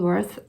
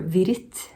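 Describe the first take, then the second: First: The name begins with an English W sound. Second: The name begins with a German V sound. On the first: "let's just go for Wirth for now" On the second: "probably his uh, Swiss German pronunciation of his name"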